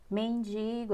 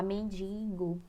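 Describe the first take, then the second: First: Said in the usual way. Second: Mendigo with an extra nasal N; common mispronunciation. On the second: Shown as a demonstration. Teacher showing how some people say mendigo, mispronounced as "mendingo". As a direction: say mendigo as "men-DIN-go". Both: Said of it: "a gente fala mendigo".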